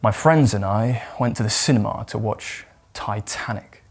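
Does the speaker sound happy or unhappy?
unhappy. The voice sounds glum and reluctant. The outing was unpleasant. "if you hate the cinema and you don't really get on that well with your friends"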